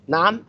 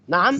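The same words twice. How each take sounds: First: It is said in an indignant, objecting tone. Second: It is said in an indignant, objecting tone.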